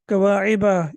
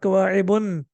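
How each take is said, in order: First: The word ends in a plain vowel, no n. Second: The word ends with an added n sound. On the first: The speaker calls it right. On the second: The speaker calls it wrong.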